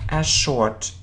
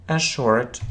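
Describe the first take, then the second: The two takes are said the same way.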